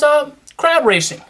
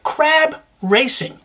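First: Said in the usual way. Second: "crab racing" drawn out slowly, leaning on "crab" with a rising end; slow emphatic crab racing. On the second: Shown as a demonstration. Vlogger savouring the crab racing reveal for his viewers, slow and drawn out. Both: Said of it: "That's right".

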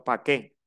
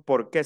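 First: "pa' qué" with "por" cut down to a quick "pa"; clipped pa' qué. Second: "por qué" with both syllables said out in full. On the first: Teacher shows the class the local clipped "pa' qué". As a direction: drop the ending and say "pa' qué" the coastal way. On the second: Teacher shows the class the full "por qué". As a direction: say "por qué" the careful textbook way. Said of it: "aquí nosotros no decimos". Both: Shown as a demonstration.

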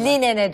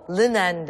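First: "Linen'e" with a clear i, as Li-ne-ne; "Linen'e" simplified, clear front vowels throughout; easier Turkish pronunciation. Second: "Linen" as lɯ-NAN, dark first vowel; "Linen" with dull ı, open e, ending on n; Irish-accented pronunciation. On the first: Shown as a demonstration. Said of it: "telaffuzu zor olduğu için". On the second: Retold or imitated. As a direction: imitate the Irish teacher's two-syllable "Linen". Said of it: "Aksanlı o, aksanlı".

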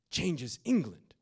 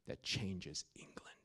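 First: Higher, louder, slow proclamation; preacher's triumphant echo; proclaimed. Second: Slow, soft whisper; hushed awe before the punchline. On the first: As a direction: hit it hard and slow. Dramatic repeat at full force. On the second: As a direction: drop to a slow reverent whisper. Dramatic hush in sermon. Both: Acted.

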